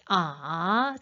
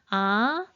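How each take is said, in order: First: The pitch dips low and then rises. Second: The pitch rises from middle to high. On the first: "삼성은 어떻게 해?" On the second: "이성은 어떻게 발음해요?"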